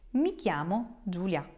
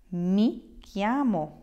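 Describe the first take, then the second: First: Said in the usual way. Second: Slow, careful "Mi chiamo" with a falling end; teacher modelling "Mi chiamo" slowly; slow model answer. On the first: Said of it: "I would say". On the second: Shown as a demonstration. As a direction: spell out "Mi chiamo" slowly for learners. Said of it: "You will answer".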